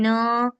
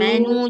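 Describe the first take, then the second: First: The word ends with an 'oh' vowel. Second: The word ends with an 'oo' vowel. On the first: The speaker calls it wrong. "jangan mano" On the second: The speaker calls it right. "Manu, jangan mano"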